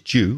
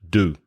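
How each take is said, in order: First: It starts with a j sound, like jew. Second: It starts with plain d, like do. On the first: "the way I say it, which is due, which is J E W, it sounds like" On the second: "American English is probably more like do, D O"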